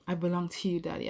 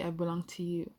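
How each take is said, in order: First: A touch of a wail, pushed out louder; mild wail. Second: A faint wail, fading back to the normal level; mild wail. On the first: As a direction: cry it out, half-hearted. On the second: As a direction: let the cry sink back. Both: Acted. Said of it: "I wailed".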